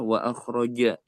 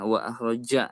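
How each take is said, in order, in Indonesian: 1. Bunyi j itu penuh, berat, dan membulat. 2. Bunyi j itu tipis dengan getaran seperti z. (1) "Jadi harusnya" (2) "nah nggak gitu"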